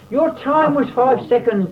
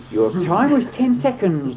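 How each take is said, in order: First: Much higher and louder, triumphant announcement; president crying out. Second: Announcing the time, a little raised; called out with mild force; president crying out. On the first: President announces John's winning time, high and loud. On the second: President announces the first climber's time, mildly raised. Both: A narrator's reading. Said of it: "the president cried".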